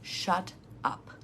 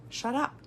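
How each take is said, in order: First: Breathy whisper of shut up, voice dropped away. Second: Said in the usual way. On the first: Shown as a demonstration. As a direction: hush it to yourself, barely sounding shut up. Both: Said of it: "once you've said no".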